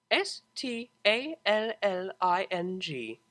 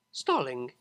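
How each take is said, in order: First: S T A L L I N G said slowly letter by letter; spelled letter by letter. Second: Said in the usual way. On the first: A narrator's reading. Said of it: "spells the word". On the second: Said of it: "spelling the word".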